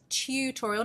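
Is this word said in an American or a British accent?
British. It is said in a British accent. The speaker calls it right.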